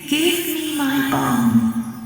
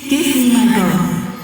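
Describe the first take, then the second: First: It is said more softly. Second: It is said more loudly.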